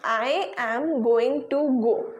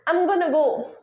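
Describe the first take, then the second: First: Going to is said as two full words. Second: Going to is blended into gonna. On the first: "पांच शब्द है proper" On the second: "उनको क्या कर दिया"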